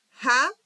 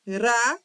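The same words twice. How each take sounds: First: "Rá" with a throaty, h-like R; dragged R. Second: "Rá" with a rolled, trembling R; trilled R. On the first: Teacher contrasting two R sounds, "Rá" with dragged R. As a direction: say "Rá" with the R scraped at the back, like "ha". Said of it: "tem um som arrastado". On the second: Teacher contrasting two R sounds, "Rá" with trilled R. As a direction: roll the R on the tongue tip in "Rá". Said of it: "tem um som tremido". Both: Shown as a demonstration.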